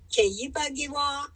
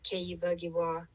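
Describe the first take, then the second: First: The phrase is said with a marked tonal melody. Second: The phrase is said with flat, plain pitch. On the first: The speaker calls it right. "it has to go Keyibagiwa, and that shows that you're announcing" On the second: The speaker calls it wrong. "you can't just say Keyibagiwa"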